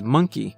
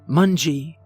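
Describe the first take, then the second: First: The word has a clear k sound in the middle. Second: The word has a soft g sound in the middle. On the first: "One of her first words was monkey" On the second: "she'd pronounce it mungy"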